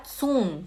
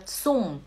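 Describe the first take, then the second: First: "zum" with a soft initial s, no t; wrong pronunciation. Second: "zum" starting with a crisp ts; correct German pronunciation. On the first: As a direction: mispronounce "zum" as soom. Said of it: "Não fala zum". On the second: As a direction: say "zum" as tsoom. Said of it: "Fala zum". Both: Shown as a demonstration.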